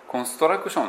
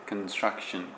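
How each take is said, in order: First: Vowels are added after each consonant, Japanese style. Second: Consonants are clustered together without added vowels. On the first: The speaker calls it wrong. "コンストラクションって言ったら思いっきり日本語ですね" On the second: The speaker calls it right. "これも母音を入れずに子音は子音で固めて"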